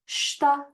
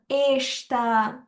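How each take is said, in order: First: The word starts directly with the sh sound. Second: A vowel sound comes before the sh sound. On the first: The speaker calls it right. "I'm just not going to read the E. I'm gonna say shta" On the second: The speaker calls it wrong. "I'm not going to say ishta"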